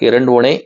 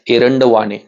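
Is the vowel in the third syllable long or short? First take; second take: short; long. First: The third syllable has a short 'va' vowel. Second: The third syllable has a long 'vaa' vowel. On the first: The speaker calls it right. "एरंडवणे असाच केला पाहिजे" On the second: The speaker calls it wrong. "हे radio jockey एरंडवाणे असा करतात"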